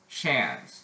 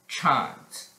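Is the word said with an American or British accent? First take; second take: American; British. First: It is said with an American accent. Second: It is said with a British accent. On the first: "That's American English" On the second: "British English"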